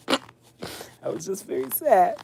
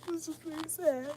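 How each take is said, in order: First: Said in the usual way. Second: Higher, much softer and quick, a mock pitiful whine; mock sad whimper. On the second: Shown as a demonstration. Telling viewers about the dental delay, mock pitiful and soft. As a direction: play up the sadness as a joke.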